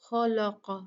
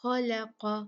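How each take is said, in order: First: खलक़ा with the lam made thick like the kha; wrong heavy lam. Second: खलक़ा with heavy kha and qaf but a light thin lam; correct thin lam. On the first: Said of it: "ऐसे नहीं पढ़ना कि लाम को भी मोटा पढ़ दें". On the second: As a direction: show the right way, lam kept light in खलक़ा. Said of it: "कैसे पढ़ना है?". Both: Shown as a demonstration.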